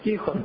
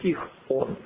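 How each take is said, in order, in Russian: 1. Имя произносится плавно, без паузы. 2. Короткая пауза делит имя Тихон на две части.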